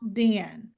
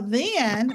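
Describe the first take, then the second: First: The word begins with a hard d sound. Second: The word begins with a soft th sound. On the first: "the th becomes duh" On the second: "if you say then, you can tell that your tongue is in between your teeth"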